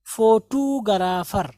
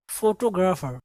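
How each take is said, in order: First: फोटोग्राफर slowly, as "fo-too-ga-raa-far"; local mispronunciation. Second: फोटोग्राफर as "fo-to-gra-fer", tight "gr"; correct English pronunciation. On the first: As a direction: draw out फोटोग्राफर with "too" and "garaa". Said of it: "हम क्या पढ़ते हैं". (फोटोग्राफर को धीरे से "फोटू-गराफर") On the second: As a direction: say फोटोग्राफर with "to", not "too". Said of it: "but ये है". (फोटोग्राफर को "फोटो-ग्रफर", अंग्रेज़ी ढंग से) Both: Shown as a demonstration.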